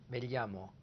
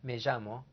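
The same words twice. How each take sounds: First: The double L sounds like L plus Y. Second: The double L has a buzzing J-like sound. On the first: "Or a L Y sound, as in me llamo, in Spain" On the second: "A J sound, as in Argentina, Uruguay"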